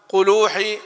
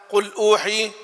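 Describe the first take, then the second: The two takes are said the same way.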